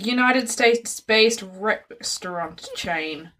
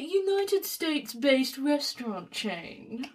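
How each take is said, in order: First: It is said in the speaker's ordinary voice. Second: It is said in a put-on posh accent. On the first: "why was that so hard for me to say?" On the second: "Say it in your posh voice"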